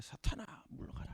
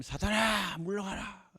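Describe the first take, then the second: First: 사탄아 물러가라 whispered; whispered stern rebuke. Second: 사탄아 물러가라 said slowly; measured stern rebuke. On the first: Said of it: "이렇게 된 거예요". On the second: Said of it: "그때 예수님이". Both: Acted.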